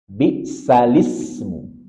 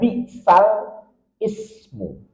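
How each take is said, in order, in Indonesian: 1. Vokal berpindah, menyambung ismu ke sal. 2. Kata ismu dimulai terpisah dengan vokalnya sendiri. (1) "Nakal, ada perpindahan harokat" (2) "Secara umum kita akan membaca"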